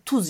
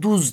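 First: The word begins with a voiceless t sound. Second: The word begins with a voiced d sound. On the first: This is the standard form. "tuz yerine duz denir" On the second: This is the regional dialect form. "tuz yerine duz denir"

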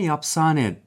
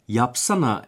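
First: The word ends with an 'e' sound. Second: The word ends with an 'a' sound. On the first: This is the local dialect form. "yapsane derler" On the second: This is the standard form. "yapsana yerine"

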